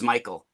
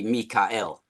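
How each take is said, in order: First: The name is said the common English way. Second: The name is said in a different, non-English way. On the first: The speaker calls it wrong. "We actually mispronounce Michael" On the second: The speaker calls it right. "It's supposed to be Mikael"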